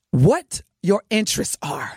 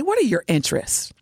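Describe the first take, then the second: First: "What your interests are" laid out as a lyric, falling at the end; wrong way to ask. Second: "What are your interests" asked as a real question, pitched higher; right way to ask. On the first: Host quoting a rapper's line to the brothers, recited "What your interests are". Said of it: "Don't say it like that". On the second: Host coaching men on approaching women, higher-pitched "What are your interests". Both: Shown as a demonstration.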